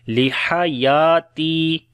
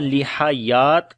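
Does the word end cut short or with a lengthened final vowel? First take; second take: lengthened; cut short. First: The word ends with a long, drawn-out final vowel. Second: The word ends abruptly on a silent final consonant. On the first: The speaker calls it right. "बल्कि लंबा करके पढ़ेंगे" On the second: The speaker calls it wrong. "ऐसे नहीं पढ़ेंगे, ताकि सुकून के साथ नहीं पढ़ेंगे"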